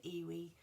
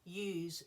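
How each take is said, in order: First: "Iwi" said "ee-wee", two syllables; a small girl's "Iwi", "ee-wee"; childish mispronunciation. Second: "ewes" said as one syllable, like "yooz"; correct ewes. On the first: Daughter insisting on her own word, "Iwi" as "ee-wee". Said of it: "And she said". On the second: Granddad giving the right word, "ewes" as "yooz". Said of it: "E W E". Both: Retold or imitated.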